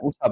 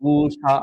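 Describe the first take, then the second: First: The first vowel is short and plain. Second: The first vowel is drawn out long. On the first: The speaker calls it right. "উষা বলছি" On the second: The speaker calls it wrong. "ঊষা আমরা বলছি না"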